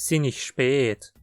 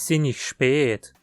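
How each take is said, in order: The two takes are said the same way.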